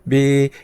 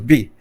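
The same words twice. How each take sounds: First: The pitch does not fall sharply. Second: The pitch falls sharply, like an angry shout. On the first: "Diferente do bi" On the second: "aí você briga com a pessoa"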